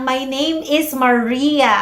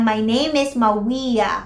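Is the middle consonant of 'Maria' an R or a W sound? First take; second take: R; W. First: The middle consonant of the name is an R. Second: The middle consonant of the name is a W. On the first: "imbis na sabihin nilang" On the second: "when they change a sound to a glide"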